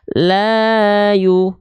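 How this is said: The long vowel swings twice on a melody. "Yang satu pakai nada"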